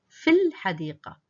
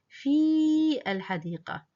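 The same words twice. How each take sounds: First: The vowel of the first word is kept short. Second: The vowel of the first word is held long. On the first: The speaker calls it right. "it's just a short vowel, not a long vowel" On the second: The speaker calls it wrong. "He's not extending the ya. He's not saying"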